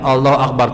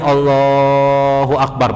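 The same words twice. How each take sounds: First: The phrase is said short. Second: The phrase is drawn out long.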